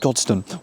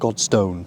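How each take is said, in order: First: The second vowel is reduced to a schwa. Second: The second vowel is a full vowel. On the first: The speaker calls it right. "it's Godstone" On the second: The speaker calls it wrong. "not Godstone"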